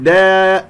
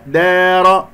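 First: دا with the long a bent toward e, louder; wrongly tilted alif. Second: دار with an open, untilted long a, loud; straight alif. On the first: Teacher showing what not to say, loud fronted vowel in دا. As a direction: tilt the alif in دا, pitched up. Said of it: "لا أقلل أو لا أميل صوت الألف". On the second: Teacher giving the correct take, loud raised chant with open alif in دار. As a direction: hold a pure aa in دار, pitched up. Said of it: "لا أميل صوت الألف". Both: Shown as a demonstration.

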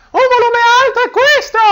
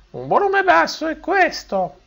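First: Much higher and louder; high pitch, loud. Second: Higher and quieter; high pitch, soft. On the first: Teacher shows high tone at high volume, loud and high. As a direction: pitch up and push the volume hard. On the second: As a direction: keep pitch up but drop the volume. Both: Shown as a demonstration.

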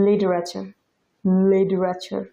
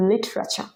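First: লিটারেচার with the t softened to d, "lidrachar"; flapped t. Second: লিটারেচার with a clear t; standard pronunciation. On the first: Teacher showing how natives say it, লিটারেচার as "lidrachar". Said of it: "যেমন ওরা উচ্চারণ করে". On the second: Teacher modelling the standard form, লিটারেচার with a true t. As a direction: keep the t hard in লিটারেচার. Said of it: "standard pronunciation". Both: Shown as a demonstration.

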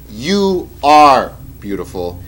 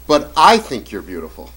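First: Slow, emphatic "are", hit loud; drawn-out, forceful "are" before beautiful; stress on ARE. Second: "I" punched, then easing off on beautiful; consoling dad, weight on "I"; stress on I. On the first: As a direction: declare it firmly, leaning hard on "are". What he should tell daughter. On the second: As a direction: lean on "I" as a merely personal opinion. What not to say to daughter. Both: Acted.

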